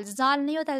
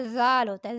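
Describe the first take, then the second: First: "زال" with a buzzing z; wrong hard z. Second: "زال" as a soft "dhaal"; tongue at the upper teeth for "زال", voiced th. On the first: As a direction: make "زال" start like English "zoo". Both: Shown as a demonstration.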